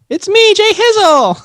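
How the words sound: It is said in a SpongeBob-like voice.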